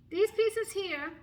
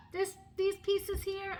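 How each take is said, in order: First: These drawn out slow and louder, pointing them out; stress on THESE. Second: Said in the usual way. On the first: Shown as a demonstration. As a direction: lean on These, slow and emphatic. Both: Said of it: "can you see?".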